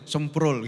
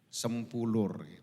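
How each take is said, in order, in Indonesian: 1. Namanya diucapkan cepat dan dipendekkan. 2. Namanya diucapkan pelan dan lengkap. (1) "Kalau cepat jadi semprul gitu" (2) "Bilang sempulurnya tuh harus pelan-pelan"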